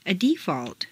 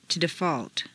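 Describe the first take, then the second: First: DEEfault, stressed on the first syllable. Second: DeFAULT, stressed on the second syllable. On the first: Teacher models noun "default", first-syllable stress. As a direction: hit DEE in "default". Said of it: "first syllable for nouns". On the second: Teacher models verb "default", second-syllable stress. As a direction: hit FAULT in "default". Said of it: "to the second syllable". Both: Shown as a demonstration.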